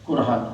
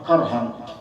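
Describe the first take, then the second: First: The first vowel is a rounded 'u' sound. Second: The first vowel is an open 'a' sound. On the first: "dibaca kurhan bidamil kaf" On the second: "yang lain dengan patah"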